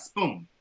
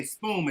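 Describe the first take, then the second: First: "spoon" ending on a clear N; "spoon" with the tongue-tip N; final N sounded. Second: "spoon" said as spoom; "spoon" with lips closed at the end; final M for N. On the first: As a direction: say "spoon" with an N, never an M. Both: Shown as a demonstration. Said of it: "not spoon".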